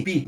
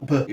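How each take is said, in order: First: "Pi" with a clear i vowel after the p. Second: "P" as a bare lip pop, no vowel after it; mute P. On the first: Teacher showing how "pneu" gets a vowel. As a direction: say "Pi", adding the i sound. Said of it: "Eu digo P, que é o fonema do P, junto com I". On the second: Teacher showing students a silent consonant. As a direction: say "P" with no vowel at all. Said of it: "Eu não digo P mudo". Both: Shown as a demonstration.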